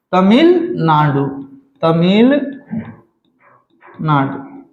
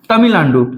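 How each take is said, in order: First: Tamil Nadu split as Tamil, Nadu, slower on each repeat; drawn-out dictation. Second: Said in the usual way. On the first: Shown as a demonstration. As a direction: stretch Tamil and leave a growing gap before Nadu. Teacher repeats name ever slower.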